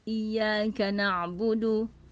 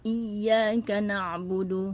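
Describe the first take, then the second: First: The y sound is light, without emphasis. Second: The y sound is doubled and emphasized. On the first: To your sunlight we worship. The speaker calls it wrong. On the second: Only to You we worship. The speaker calls it right.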